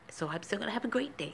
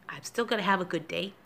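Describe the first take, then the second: First: Breathy whisper to herself. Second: Said in the usual way. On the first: Real, not acted. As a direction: whisper it softly. Repeats line, second whispered.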